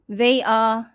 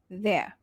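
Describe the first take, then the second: First: It is said as two full words. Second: It is contracted into one syllable.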